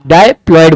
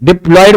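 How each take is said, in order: First: The first syllable is a long 'die'. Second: The first syllable is a short 'dip'. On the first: The speaker calls it right. "आप डायप्लॉयड बोलिए, अपने आप याद रहेगा।" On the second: The speaker calls it wrong. "डिप्लॉयड बोलते हो तो डिप ज्यादा प्रोमिनेंट लगता है"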